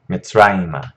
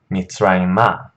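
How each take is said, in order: First: Mitzrayimah stressed in the middle on -ra-, final a light and reduced; corrected stress. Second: Mitzrayimah with the stress slipped onto the last syllable, final a open and full; wrong stress. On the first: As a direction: say Mitzrayimah with the accent on the middle syllable. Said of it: "the accent is still right here in the middle of the word". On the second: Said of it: "I'm putting the accent in the wrong place". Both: Shown as a demonstration.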